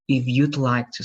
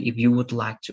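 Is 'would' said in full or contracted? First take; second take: contracted; full. First: The word would is contracted to you'd. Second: The word would is said in full. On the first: The speaker calls it right. "Only use the contractions, you'd" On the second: The speaker calls it wrong. "I don't say if you would like to"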